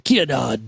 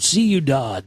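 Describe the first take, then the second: First: The word begins with a k sound. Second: The word begins with an s sound. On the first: The speaker calls it wrong. "I was saying Q Dodd or Kia Dodd" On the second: The speaker calls it right. "it's pronounced like this"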